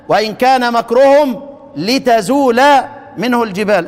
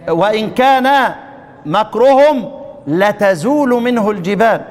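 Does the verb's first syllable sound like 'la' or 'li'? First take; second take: li; la. First: The verb starts with 'li' and ends in 'a'. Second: The verb starts with 'la' and ends in 'u'. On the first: The lam expresses purpose. "ضد الفتح الكسر، طيب وضد الرفع النصب" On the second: The lam is a particle of emphasis. "يبقى الفتح في اللام الاولى والرفع في اللام الثانية"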